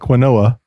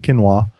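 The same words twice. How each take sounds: First: The word is read out literally, sound by sound. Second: The word is said in its usual pronunciation. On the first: The speaker calls it wrong. "It's spelled like quinoa" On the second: The speaker calls it right. "but they pronounce it quinoa"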